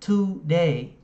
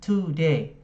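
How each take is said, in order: No difference in how they are said.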